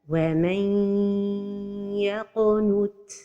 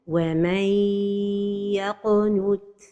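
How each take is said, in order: First: The n merges into y with a held nasal hum. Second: The n merges into y with no nasal hum. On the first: The speaker calls it right. "And the idgham is with ghunna" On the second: The speaker calls it wrong. "The mistake is to pronounce the idgham without ghunna"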